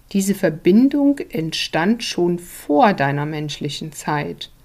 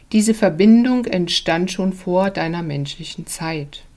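The two takes are said the same way.

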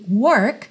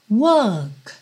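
First: It has a curled American R after the vowel. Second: It has no R, just a lengthened vowel.

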